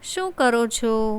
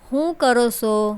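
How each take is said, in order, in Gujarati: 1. પહેલો શબ્દ 'sh' અવાજથી શરૂ થાય છે. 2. પહેલો શબ્દ 'h' અવાજથી શરૂ થાય છે. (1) "શુદ્ધ ગુજરાતી થશે" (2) "સ્થાનિક બોલી સને બદલે હ"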